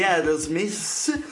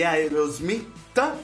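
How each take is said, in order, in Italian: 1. Il nome si pronuncia con accento inglese. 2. Il nome si pronuncia con accento italiano.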